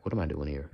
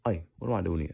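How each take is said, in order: First: Loose Southern-leaning American accent; bemused Southern-tinged accent; Southern, Black-sounding accent. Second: Light Hispanic accent attempt; put-on Hispanic accent. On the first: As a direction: let the Southern accent slide. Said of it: "that sounds more black". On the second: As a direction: open with a Hispanic-flavoured cry. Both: Shown as a demonstration.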